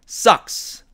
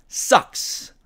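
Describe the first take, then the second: No difference in how they are said.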